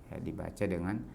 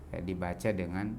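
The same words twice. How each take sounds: Both takes have the same delivery.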